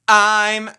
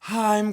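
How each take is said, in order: First: It starts with a sharp catch in the throat. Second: It starts with a soft breathy puff of air. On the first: "There's a glottal like this" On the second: "You can start with air, which would be called an aspirate onset"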